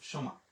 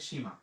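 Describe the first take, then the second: First: The first vowel is a short 'uh' sound. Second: The first vowel sounds like 'ee'. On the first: The speaker calls it right. "কিন্তু এটা কিন্তু সীমা না" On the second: The speaker calls it wrong. "যেই ব্যক্তি ইংরেজি পড়ে সে বলে সীমা"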